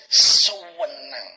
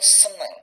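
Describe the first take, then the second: First: The first syllable is drawn out, East Java style. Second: The first syllable is short and plain.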